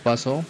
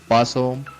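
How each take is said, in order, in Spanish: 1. El acento está en la última sílaba. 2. El acento está en la primera sílaba. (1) "si agregamos una acentuación en la, en la O" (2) "primera persona"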